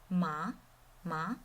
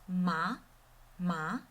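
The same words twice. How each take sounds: No difference in how they are said.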